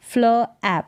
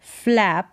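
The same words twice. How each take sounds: First: फ्ल ऐप in two parts; sounded out. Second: Said in the usual way. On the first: Shown as a demonstration. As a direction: separate फ्ल from ऐप. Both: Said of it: "फ्ल होगा".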